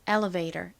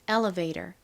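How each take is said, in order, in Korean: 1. L 뒤의 모음은 uh 소리처럼 납니다. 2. L 뒤의 모음은 uh 소리처럼 납니다.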